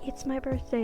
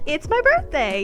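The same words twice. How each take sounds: First: It is said quietly and casually, without fuss. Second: It is said loudly and excitedly, demanding attention. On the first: The birthday is no big deal. "I'm more like" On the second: Everyone should pay attention to the birthday. "it's my birthday, pay attention to me kind of person"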